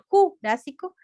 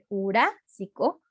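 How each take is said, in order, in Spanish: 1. El acento cae en otra sílaba. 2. El acento cae en la sílaba 'rá'. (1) "no se va a decir jurásico" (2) "sino que jurásico, entonces lleva en la A"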